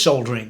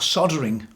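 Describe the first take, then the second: First: It is pronounced the British way. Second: It is pronounced the American way. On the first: The speaker calls it right. "it's soldering, right? Let's get that right" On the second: The speaker calls it wrong. "as they say in America"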